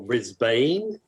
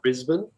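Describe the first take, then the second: First: It is said with an American pronunciation. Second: It is said with an Australian pronunciation.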